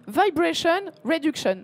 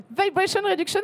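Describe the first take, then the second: First: Put-on Vibration Reduction in a light American accent, vy-bray-shun. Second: Put-on Vibration Reduction again in a higher, showier American accent. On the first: Presenter to photography audience, light American accent. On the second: Presenter showing off her practised accent, hammed-up American. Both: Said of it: "je me suis entraînée pour mon accent américain".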